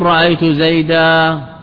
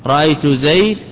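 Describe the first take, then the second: First: The last word ends in a long a vowel. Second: The last word ends in a bare consonant. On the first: This is the well-known standard usage. "هذا على اللغة الفصحى المشهورة" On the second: "وأما لغة ربيعة فبينهما التسوية"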